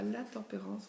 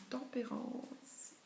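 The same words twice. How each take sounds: First: "la tempérance" said with the article la, marked as the wrong form; "la tempérance" with the article, as the form people wrongly use. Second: "tempérance" alone, no article, slow and soft; "tempérance" without la, slow and quiet; right form. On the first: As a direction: say "la tempérance" with la before the noun, then reject it. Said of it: "mais on ne dit pas la tempérance". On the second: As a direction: say "tempérance" bare and slowly, the correct way. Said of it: "on dit tempérance". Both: Shown as a demonstration.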